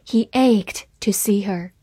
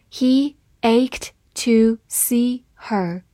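First: Said in the usual way. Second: Slow, word by word; slow reading. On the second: Shown as a demonstration. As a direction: read it slowly and clearly for learners. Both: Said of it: "好，慢读一遍。".

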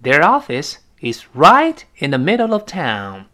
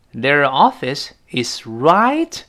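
First: Said in the usual way. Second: Slow, drawn out reading; slow motion. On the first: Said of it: "example sentence". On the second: Shown as a demonstration. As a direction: read it out word by word slowly. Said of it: "repeated slowly".

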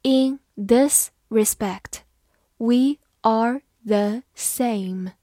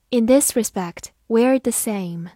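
First: Slow, careful read-aloud; slow classroom model reading. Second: Said in the usual way. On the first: Shown as a demonstration. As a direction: read it slowly for the class to follow. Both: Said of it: "好，慢慢来读。".

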